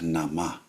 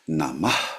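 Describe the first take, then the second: First: The word ends cleanly without a breath. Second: The word ends with an expelled breath. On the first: The speaker calls it wrong. "not just Nama" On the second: The speaker calls it right. "with this expelling sound"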